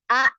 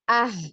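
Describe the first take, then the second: First: The vowel ends with an abrupt catch in the throat. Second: The vowel ends with an audible breathy h. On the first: "seperti ada huruf hamzah lagi. Ya jadi ada penekanan" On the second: "seperti ada huruf H di belakang"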